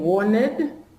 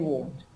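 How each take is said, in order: First: The ending is said as an extra syllable. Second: The ending adds no extra syllable. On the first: The speaker calls it wrong. "So instead of saying" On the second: The speaker calls it right. "we say"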